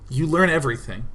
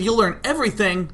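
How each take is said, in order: First: The pitch settles down to a final ending. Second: The pitch stays up as if more follows. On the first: The statement is complete. The speaker calls it right. "That's how you make the sentence sound final" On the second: Something more seems to come after it. The speaker calls it wrong. "But instead I said"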